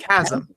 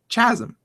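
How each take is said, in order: First: It does not begin with a ch sound. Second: It begins with a ch sound. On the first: The speaker calls it right. "I'm assuming it's" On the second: The speaker calls it wrong. "C H makes a ch sound"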